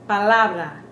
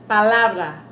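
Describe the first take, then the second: No difference in how they are said.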